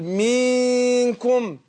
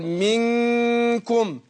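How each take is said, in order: First: The first vowel is stretched long like 'ee'. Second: The first vowel is kept short. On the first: The speaker calls it wrong. "فيروح يمط حركه الكسر" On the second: The speaker calls it right. "لكن هي حركه وليست حرف، يعني يقول منكم"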